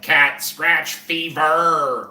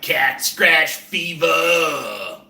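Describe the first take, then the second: First: Each word is over-enunciated with a hard final R. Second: The final R is dropped, loosely slurred. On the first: It sounds uptight and unnatural. The speaker calls it wrong. "so enunciates it" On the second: It sounds like a real rock star. The speaker calls it right. "Like a real rock star would be like Cat Scratch Fever. There would you wouldn't even hear a hard R at the end of that"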